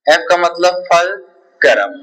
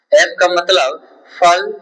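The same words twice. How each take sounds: First: Each word spoken slowly and clearly, fulcrum completed with a fall; slow dictation that settles on fulcrum. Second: Each word spoken slowly and clearly, फल cut short with a rise; slow dictation with a rising फल. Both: Shown as a demonstration. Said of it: "teacher dictates the answer".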